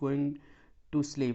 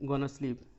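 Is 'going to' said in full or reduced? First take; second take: full; reduced. First: 'Going to' is said as two full words. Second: 'Going to' is blended into one word. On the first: "he is गोइंग टू sleep" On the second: "गोइंग टू को गोना भी कहते हैं"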